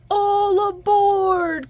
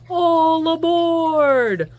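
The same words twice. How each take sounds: First: Higher, slow, louder call to board; conductor's call. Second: Slow, louder train-conductor call; conductor's call. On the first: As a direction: call them aboard again, sleepily. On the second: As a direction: call everyone onto the train. Porter calls passengers. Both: Acted.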